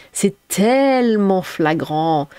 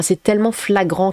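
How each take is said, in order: First: TELLEMENT drawn out very slowly; stretched emphasis. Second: Said in the usual way. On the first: Real, not acted. Streamer insisting on how obvious it is, tellement dragged out.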